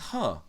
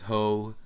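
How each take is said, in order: First: The name has a short 'uh' vowel. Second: The name has a long 'oh' vowel. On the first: This is the name's actual pronunciation. The speaker calls it right. "how it's pronounced actually, which is Huh" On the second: This is how the name used to be said. The speaker calls it wrong. "for the longest time it was Ho"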